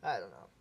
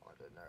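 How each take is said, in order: First: A hint of a British accent on "I don't know". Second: Put-on softer British accent, "I don't know" rising at the end. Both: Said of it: "I just like doing British accents".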